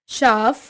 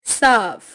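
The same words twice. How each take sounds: First: SH starting साफ; Pahari pronunciation. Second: Said in the usual way. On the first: Shown as a demonstration. Teacher showing Pahari speech, साफ with sh for s. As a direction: say साफ as "shaaf". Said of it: "पहाड़ी उच्चारण". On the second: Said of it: "Hindi उच्चारण".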